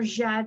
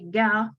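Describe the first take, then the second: First: It is said with a soft 'j' sound. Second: It is said with a hard 'g' sound.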